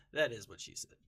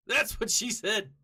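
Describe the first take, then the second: First: "That is what she said" lower, back at talking volume; deadpan confirmation. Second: Loud, high jokey outburst; blurted punchline. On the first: Calmly confirms own joke afterwards. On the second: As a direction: crow the cheeky punchline out loud. Blurts out a stock joke. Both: Real, not acted.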